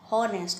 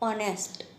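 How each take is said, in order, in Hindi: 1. यह शब्द एक सुनाई देने वाली h ध्वनि से शुरू होता है। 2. यह शब्द सीधे स्वर ध्वनि से शुरू होता है। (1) "हॉनेस्ट नहीं पढ़ सकते" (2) "हम लोग क्या पढ़ते हैं"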